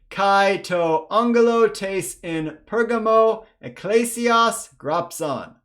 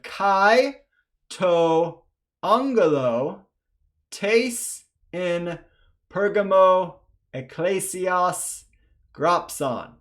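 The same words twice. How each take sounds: First: It is read faster. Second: It is read slowly.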